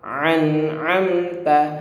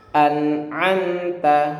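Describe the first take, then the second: First: Both syllables begin with a throat sound. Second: A glottal stop, then a throat sound. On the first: The speaker calls it wrong. "Atau keduanya eh, ain, ini juga salah" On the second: The speaker calls it right. "Yang betul yang pertama adalah eh, hamzah"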